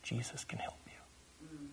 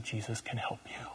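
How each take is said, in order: First: A slow, breathy whisper. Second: Quiet. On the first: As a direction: whisper it slowly into his ear. Repeating it to the possessed man. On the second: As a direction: say it softly, close to him. Quietly comforting the possessed man. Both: Retold or imitated.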